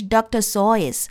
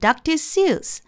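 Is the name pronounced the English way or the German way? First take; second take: German; English. First: The surname is pronounced the German way. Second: The surname is pronounced the English way. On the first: This is the name's original pronunciation in its source language. "他正确的发音应该是 ... 因为他的名字是德语的名字" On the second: This is how English speakers commonly say the name. "我们念成"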